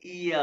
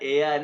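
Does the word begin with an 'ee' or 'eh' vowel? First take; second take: ee; eh. First: The word begins with an 'ee' vowel. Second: The word begins with an 'eh' vowel. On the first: The speaker calls it right. "इया है" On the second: The speaker calls it wrong. "एया नहीं"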